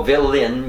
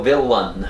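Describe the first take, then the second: First: "villain" as vel-en; wrong villain. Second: "villain" as vil-an; own villain. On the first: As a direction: say "villain" with an e sound, vélen. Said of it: "yo no digo villain". ("villain" como vélen) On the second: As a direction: say "villain" with a clear i and a, vílan. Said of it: "yo digo villain". ("villain" como vílan) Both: Shown as a demonstration.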